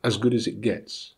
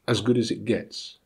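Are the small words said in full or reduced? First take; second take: reduced; reduced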